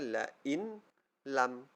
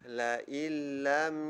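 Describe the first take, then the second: First: The n is pronounced separately before the l. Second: The n merges fully into the following l. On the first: "sepatutnya bacaan dia la in lam" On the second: "idgham bila gunnah kita masukkan. Tiada sudah bunyi nun"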